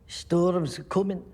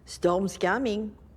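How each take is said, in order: First: It is spoken in a put-on Scottish accent. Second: It is spoken in a put-on French Canadian accent. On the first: "I was trying a Scottish dialect" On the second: "Now she's French Canadian"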